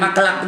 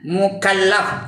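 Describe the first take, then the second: First: The word begins with 'mak' and has two syllables. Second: The word begins with 'muk' and has three syllables. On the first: The speaker calls it wrong. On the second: The speaker calls it right.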